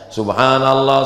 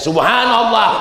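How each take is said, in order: First: It is said aloud in a calm, ordinary way. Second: It is said pointedly, aimed provocatively at someone.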